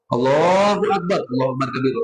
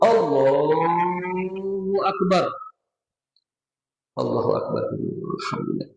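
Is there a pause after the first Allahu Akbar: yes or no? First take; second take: no; yes. First: It runs straight on without a pause. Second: A short pause follows the first Allahu Akbar.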